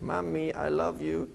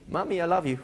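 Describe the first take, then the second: First: It is said in a creepy, sinister tone. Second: It is said in a happy, cheerful tone.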